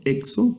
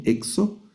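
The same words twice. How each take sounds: First: "exo" stressed on the opening E; stress on first syllable. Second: "exo" wrongly stressed on the final O; stress on final syllable. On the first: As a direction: correct it by punching the first E of "exo". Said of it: "el acento está en la primera letra". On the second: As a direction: show the mistake, putting the weight on the last O of "exo". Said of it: "no es exo". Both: Shown as a demonstration.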